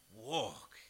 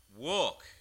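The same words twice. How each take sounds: First: Said in the usual way. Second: WALK as a firm falling command. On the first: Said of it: "It's a bold statement". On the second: Acted. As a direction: bark walk as an order. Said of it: "Then Peter said".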